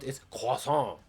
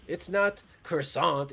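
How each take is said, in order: First: Loud "croissant" as kwah-SOH, no final t; mock French croissant. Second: High, slow, loud "croissant" as kruh-SAHNT; mock English croissant. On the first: Streamer mimics pedants, "croissant" as snooty French kwah-SOH. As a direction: say "croissant" in exaggerated French, swallowing the t. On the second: Streamer mimics pedants, "croissant" stressed as English kruh-SAHNT. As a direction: say "croissant" the English way, sounding the final t. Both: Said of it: "same type of people".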